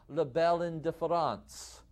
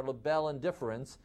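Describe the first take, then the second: First: Hammed-up French pronunciation, nasal final vowel; deliberately poor French accent; bad French accent. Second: Plain American Midwestern pronunciation; anglicized, everyday Midwestern accent. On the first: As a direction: put on a mock French accent. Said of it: "in my worst French accent". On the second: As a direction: say the French term in a Midwestern accent. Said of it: "in my Midwestern accent". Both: Shown as a demonstration.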